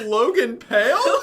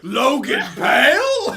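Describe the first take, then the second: First: It is said plainly, without roaring. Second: It is roared loudly.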